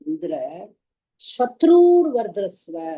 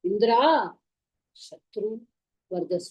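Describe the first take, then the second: First: The word shatru is raised to a high pitch. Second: The word shatru is not raised in pitch. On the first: Indra's enemy should prosper. The speaker calls it right. "சத்ருவை வந்து ஏத்திருக்கணும். சத்ருர் அப்படின்னு ஹையர்ல சொல்லிட்டு" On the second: Indra himself should prosper. The speaker calls it wrong. "இத வந்து ஸ்லோவா சொல்லிட்டாரு"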